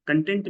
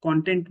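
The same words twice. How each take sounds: First: "Content" as kun-TENT; stress on second syllable. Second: "Content" as KON-tent; stress on first syllable. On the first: Teacher explaining the satisfied meaning, "Content" stressed kun-TENT. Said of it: "Content means satisfied". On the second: Teacher explaining the social media meaning, "Content" stressed KON-tent. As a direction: stress the start of "Content", the noun. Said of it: "the way you pronounce it". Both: Shown as a demonstration.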